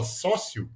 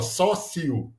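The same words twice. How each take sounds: First: Said in the usual way. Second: "sócio" in three slow syllables, SÓ-ci-o; SÓ-ci-o, the ending pulled apart; split final diphthong. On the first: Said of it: "é pronunciado como se fosse uma". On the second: Shown as a demonstration. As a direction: draw out "sócio", separating the i from the o. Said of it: "como se fosse uma proparoxítona".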